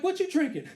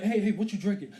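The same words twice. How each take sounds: First: High-pitched woman's voice; lightly mocked female voice; imitated woman. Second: Said in the usual way. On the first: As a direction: ask it back high, as the woman at the bar. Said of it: "She's like". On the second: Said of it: "I'm like".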